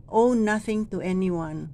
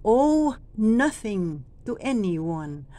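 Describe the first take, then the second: First: Said in the usual way. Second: Very slow, long Owe; drawn-out owe. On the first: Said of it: "wala pong dating". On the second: Shown as a demonstration. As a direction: stretch Owe nothing to anyone. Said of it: "hahabaan natin dito".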